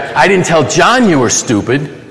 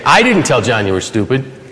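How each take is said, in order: First: The word "John" carries the main stress. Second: The word "I" carries the main stress. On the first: It was told to someone other than John. "I told somebody else" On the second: Someone else told John. "Somebody else did"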